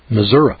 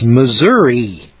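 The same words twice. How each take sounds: First: The name ends with an 'uh' sound. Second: The name ends with an 'ee' sound. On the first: This is how locals say it. "If we wanted to pronounce that Missouri, we'd spell it M-I-S-S-O-U-R-A" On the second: This is how people from the West say it. "when we see M-I-S-S-O-U-R-I, that's Missouri"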